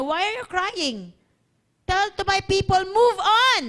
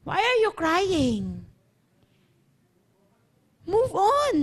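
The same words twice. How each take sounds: First: Building to a loud, high command; commanding divine reply. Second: Slow, drawn-out divine reply; deliberate repeated command. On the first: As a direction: preach God's order, rising on "move on". Voices the Lord answering Moses. (utos ng Lord, palakas nang palakas) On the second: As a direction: stretch the words, less forceful, high on "move on". Repeats the Lord's reply slowly. (mabagal at madiing utos ng Lord) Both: Acted.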